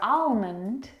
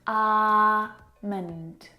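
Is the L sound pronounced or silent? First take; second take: pronounced; silent. First: The L sound is pronounced. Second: The L sound is silent. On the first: The speaker calls it wrong. "or almond" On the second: The speaker calls it right. "the L is silent"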